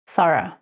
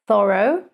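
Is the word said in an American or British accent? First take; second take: British; American. First: British accent, ending with a weak reduced vowel. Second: American accent, ending with a full 'oh' sound. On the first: "In British English" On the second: "in America would be thorough, so they do the sound O in the end"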